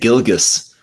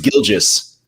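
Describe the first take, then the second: First: The name is said ending in a short 'gus'. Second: The name is said ending in 'gee-us'. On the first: The speaker calls it wrong. "I was saying Gilgus" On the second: The speaker calls it right. "it's Gilgeous"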